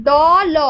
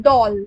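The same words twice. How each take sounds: First: "দ, ল" as two separate sounds, pause between; split apart. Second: Said in the usual way. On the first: Shown as a demonstration. Teacher showing how not to read it, "দ, ল" split in two. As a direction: break দল into a drawn-out দ, then ল. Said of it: "এভাবে আমরা পড়ি". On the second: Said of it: "উচ্চারণটা করি দল".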